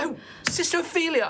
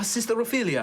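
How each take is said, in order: First: High-pitched, quick exclamation of recognition; surprised greeting. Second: Put-on high-pitched greeting in a light European accent; slight European accent. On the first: Acted. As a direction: greet an unexpected friend, accent forgotten. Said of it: "I forget that he has slightly, uh, European accent". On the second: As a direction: redo the name with a hint of European accent. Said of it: "European accent".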